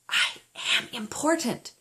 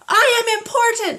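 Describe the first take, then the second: First: It is said at the lowest volume. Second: It is said at the highest volume.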